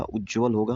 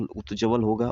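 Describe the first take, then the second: First: उज्ज्वल with a doubled ज and no त; correct pronunciation. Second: उत्ज्वल with a clear त before ज्वल; wrong spelling said out. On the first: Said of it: "इसमें जो सही विकल्प है". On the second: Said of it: "लेकिन ये गलत है". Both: Shown as a demonstration.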